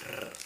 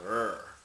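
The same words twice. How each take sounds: First: R as a rolled tongue trill. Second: R held smooth, without trilling; English r. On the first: Showing what the symbol really is, rolled r. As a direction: roll r rapidly instead of holding it smooth. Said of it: "this is not r". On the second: Showing viewers what the symbol is not, smooth English r. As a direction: draw out an untrilled English r. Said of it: "That's how you say English". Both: Shown as a demonstration.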